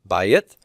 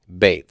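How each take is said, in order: First: It has two syllables with a diphthong. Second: It has one syllable with a single vowel. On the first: "has the A Y diphthong" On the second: "It's become a single vowel sound"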